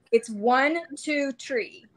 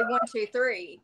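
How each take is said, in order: First: "tree" for three, with a hard t; uncle's THREE. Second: Said in the usual way. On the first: Retold or imitated. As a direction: count one, two, "tree" like the uncle. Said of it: "My uncle was from up north". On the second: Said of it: "we say".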